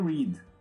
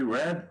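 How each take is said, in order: First: The vowel is long, like 'reed'. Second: The vowel is short, like 'red'. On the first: The action happens in the present. "No presente seria read" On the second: The action happened in the past. "Mas como ele está no passado... a gente vai mudar o quê? A pronúncia"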